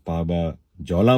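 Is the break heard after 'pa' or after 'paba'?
after paba. The phrase is split after the syllables 'paba'. The verse's meaning is changed. The speaker calls it wrong. "पाबा जौला बोलेंगे तो वो शेर के मानी बदल देगा"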